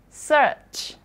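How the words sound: A British accent with the R sound silent. "Kalau di British, dia R-nya nggak dibaca"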